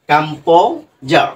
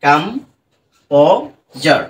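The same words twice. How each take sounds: First: কম্পোজার said very slowly; slow model. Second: কম্পোজার stretched extremely slowly, each syllable held; extremely drawn out. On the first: Teacher models কম্পোজার slowly after splitting it. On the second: Teacher drags out কম্পোজার for students. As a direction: drag out কম্পোজার. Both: Shown as a demonstration. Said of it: "মাঝখান দিয়ে ভেঙে দিলাম".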